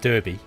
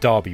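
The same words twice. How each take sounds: First: The first syllable has no A vowel sound. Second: The first syllable has an A vowel sound. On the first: The speaker calls it wrong. "if you're in Australia, you'd pronounce that Derby" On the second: The speaker calls it right. "it's pronounced Derby with an A, like with an A sound"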